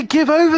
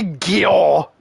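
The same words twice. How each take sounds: First: "Give over" said in full, two clear words, high and loud; say it right. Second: "Gyor" squashed into one slurred syllable; mock the lazy "Gyor" with "Give over" run together; wrong slurred version. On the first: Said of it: "Then say, "Give over," then". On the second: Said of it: "Don't say, "Gyor". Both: Shown as a demonstration.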